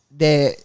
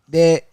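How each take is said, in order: Both takes have the same delivery.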